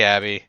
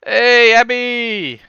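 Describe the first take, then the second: First: Said in the usual way. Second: Loud drawn-out call. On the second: Real, not acted. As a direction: call her name across the house. Calling out to join call.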